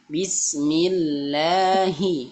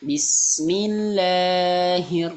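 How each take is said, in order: First: The long vowel is held for a moderate length. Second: The long vowel is stretched out far too long. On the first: The speaker calls it right. "dua harokat saja" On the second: The speaker calls it wrong. "jangan Bismillahir. Nah, kepanjangan ya"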